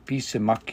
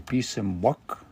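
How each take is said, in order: First: No w glide comes before the final syllable. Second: A w glide comes before the final syllable. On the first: The speaker calls it wrong. "you don't say bisimak" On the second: The speaker calls it right. "you say bisimwak"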